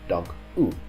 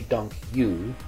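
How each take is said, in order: First: The last word has the Dutch 'u' vowel. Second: The last word sounds like English 'you'. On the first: The speaker calls it right. "It should be pronounced dank u" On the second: The speaker calls it wrong. "Don't say dank you. That sounds a little bit strange"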